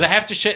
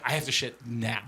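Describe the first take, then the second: First: Loud, higher, urgent; urgent declaration. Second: Quieter, tight, strained voice; strained and desperate. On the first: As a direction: announce it with urgency. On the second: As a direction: hold it in, barely getting words out. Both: Retold or imitated. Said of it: "there's two different kinds of".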